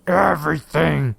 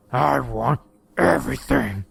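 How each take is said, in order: First: Slow Texas drawl on everything. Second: Slow Texas drawl, creature voice; lazy menacing drawl, drawn out. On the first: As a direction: stretch the word out, lazy and menacing. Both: A narrator's reading. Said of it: "he said in a slow drawl".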